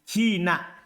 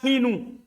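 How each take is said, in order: First: The word ends with an a vowel. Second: The word ends with a u vowel. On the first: The subject has been dropped. "Mansub karena sisa khobarnya" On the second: The predicate has been dropped. "Dibaca ropa"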